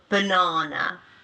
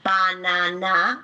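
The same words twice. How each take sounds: First: The unstressed vowels are reduced to schwa. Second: The unstressed vowels are full a sounds. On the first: The speaker calls it right. "The a turns into a schwa sound" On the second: The speaker calls it wrong.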